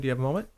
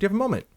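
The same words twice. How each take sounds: First: It is said plainly, without a smile. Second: It is said warmly, with a smile. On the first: The speaker calls it wrong. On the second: The speaker calls it right.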